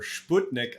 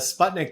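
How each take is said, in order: First: It is said with a Russian pronunciation. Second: It is said with an English pronunciation.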